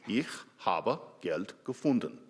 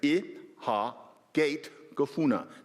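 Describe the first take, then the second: First: It is said in Standard German. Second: It is said in Bavarian dialect.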